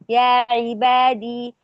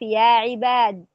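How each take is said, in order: First: The word ends with a long 'ee' vowel. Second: The word ends on the consonant 'd'. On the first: "وفي الوقف يقرأها بالإسكان" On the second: "ويقرأها في الوقف يا عباد"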